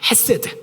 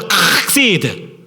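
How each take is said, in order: First: The word starts softly, without throat friction. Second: The word starts with a harsh, scraping throat sound. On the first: "그래서 헤세드라고 하는 말로 바꿔 부릅니다" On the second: "가래 나오기 직전. 곧 그 발음이 정확한 발음이에요"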